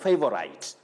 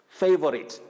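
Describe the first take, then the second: First: The final syllable sounds like 'site'. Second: The final syllable does not sound like 'site'. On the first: The speaker calls it wrong. "not favorite ... because of S I T E, that is site" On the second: The speaker calls it right. "you say favorite"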